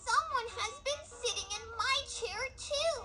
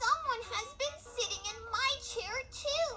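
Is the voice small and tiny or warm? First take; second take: little; little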